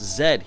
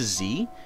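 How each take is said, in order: First: The letter is said the Canadian way. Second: The letter is said the American way. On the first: "that letter is pronounced Z here in Canada" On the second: "I'm used to Z"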